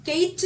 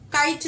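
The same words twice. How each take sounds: First: Kite mispronounced as "Kate"; "kite" wrongly voiced with an E-I glide; wrong vowel demo. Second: "kite" with a clear AH-EE glide; "kite" pronounced to rhyme with "light"; correct vowel demo. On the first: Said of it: "kite എന്നല്ല". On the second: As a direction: say "kite" with the long I diphthong. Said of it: "kite എന്നല്ലേ? ആ, ഈ, ite". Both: Shown as a demonstration.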